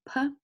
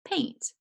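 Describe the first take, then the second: First: "p-a-int" broken into separate sounds; sounding out. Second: "Paint" said whole in one syllable, higher; blended word. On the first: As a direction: hold the long "a" in "p-a-int". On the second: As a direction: put "Paint" together quickly and pitch it up. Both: Shown as a demonstration. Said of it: "we need to spell the word".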